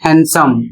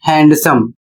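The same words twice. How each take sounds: First: हैंडसम said hen-sum, no d; correct handsome. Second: हैंडसम said hand-sum, d sounded; wrong handsome. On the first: Teacher giving the correct हैंडसम. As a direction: drop the d in हैंडसम. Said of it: "सही उच्चारण होता है". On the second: Teacher showing the wrong हैंडसम students say. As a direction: hit the d in हैंडसम. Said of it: "जबकि इसको आप पढ़ते हैं". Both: Shown as a demonstration.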